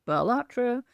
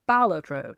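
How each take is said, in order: First: "Balatro" as ba-LAT-ro, second syllable raised; slow, higher "Balatro" leaning on LAT; mistaken pronunciation. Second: "Balatro" as BAL-atro, first syllable stressed; correct pronunciation. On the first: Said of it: "not Balatro". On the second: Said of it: "you are supposed to pronounce it Balatro". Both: Shown as a demonstration.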